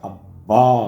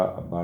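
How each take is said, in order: First: अब्बा with a held, doubled b, slow and pressed; doubled b, stressed. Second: अब्बा said with a short single b, like "aba"; soft, unstressed अब्बा without doubling; wrong, single b. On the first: Father's friend teaching the child, slow emphatic doubled-b अब्बा. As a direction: lean hard on the ब in अब्बा. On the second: Father's Urdu-speaking friend quoting the child's mistake, single-b अब्बा. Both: Retold or imitated. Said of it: "ज़रा बे पे ज़ोर दे के बोला करे".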